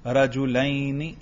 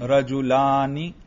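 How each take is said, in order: First: رجلینی slowly and softer, with a long lai diphthong before ni; pronounced ya. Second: رجلانی slowly, with a long open laa before ni; pronounced alif. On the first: Teacher asking what he read, ya drawn out. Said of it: "کچھ پتہ چلا میں نے کیا پڑھا؟". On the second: Teacher asking what he read, alif drawn out. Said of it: "تلفظ کر رہا ہوں یا نہیں؟". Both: Shown as a demonstration.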